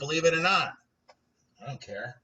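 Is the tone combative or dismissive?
dismissive. It sounds dismissive, like talking down to someone.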